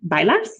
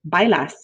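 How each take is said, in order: First: The voice rises at the end. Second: The voice falls at the end.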